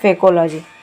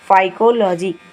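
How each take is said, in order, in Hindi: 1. पहला अक्षर 'fay' जैसा सुनाई देता है। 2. पहला अक्षर 'fie' जैसा सुनाई देता है। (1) "मैं मजाक में बोल रही हूँ" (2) "फाइकोलॉजी ही बोला जाता है"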